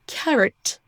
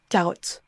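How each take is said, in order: First: "carrot" with schwa in second syllable; English "carrot", o reduced. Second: "carotte" with full French o; French-style mistake. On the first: Teacher points to second vowel, English schwa. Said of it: "il y a un son schwa". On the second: Teacher shows what not to say, French-style vowels. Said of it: "et non carotte". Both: Shown as a demonstration.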